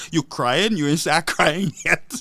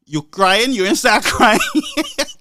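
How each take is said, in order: First: Slow, teasing mock taunt; slow sneering jab at a crying rival; mocking Guy Joseph taunt. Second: Louder taunt breaking into laughter; heckler's jab laughed through; mocking Guy Joseph taunt. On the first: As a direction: drag out the jeer like a heckler. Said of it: "like Guy Joseph say". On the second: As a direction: jeer it, laughing at the end. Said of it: "Guy Joseph to tell the man".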